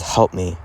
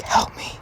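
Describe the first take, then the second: First: Said in the usual way. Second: Voiceless, softer whispered plea; imitated whisper. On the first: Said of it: "And then Brandon whispers". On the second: Retelling a caller's plea on a police call, whispered. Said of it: "in a whisper".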